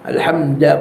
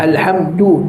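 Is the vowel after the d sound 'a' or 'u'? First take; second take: a; u. First: The vowel after the d is a. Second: The vowel after the d is u. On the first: The speaker calls it wrong. "bukan alhamda" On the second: The speaker calls it right. "du tu dhammah"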